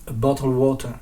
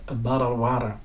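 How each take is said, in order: First: It is said with a British accent. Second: It is said with an American accent. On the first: "en britannique on va dire" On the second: "en américain, on va plutôt avoir quelque chose qui ressemble à"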